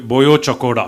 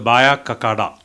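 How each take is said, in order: First: The name is said with rounded Odia vowels. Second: The name is said with English-like vowels. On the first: The speaker calls it right. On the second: The speaker calls it wrong.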